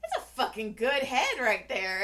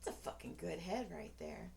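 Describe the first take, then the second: First: Loud, higher, emphatic compliment; calling out. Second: Low, soft admiring mutter; quiet aside. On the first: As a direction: blurt it out across the room. Calls it out as he walks in. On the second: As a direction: murmur it low, as if to yourself. Murmurs remark, then says it aloud. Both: Acted.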